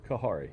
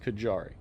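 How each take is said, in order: First: The middle consonant is an H sound. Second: The middle consonant is a J sound. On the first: The speaker calls it wrong. "It's definitely not Kahari" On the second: The speaker calls it right. "It is Kajari"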